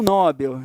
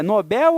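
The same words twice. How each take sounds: First: "Nobel" as NÓ-bel; stress on the first syllable. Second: "Nobel" as no-BEL; stress on the last syllable. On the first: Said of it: "num erro chamado silabada". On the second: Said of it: "é a pronúncia correta, né?". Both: Shown as a demonstration.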